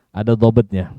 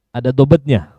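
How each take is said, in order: Both takes have the same delivery.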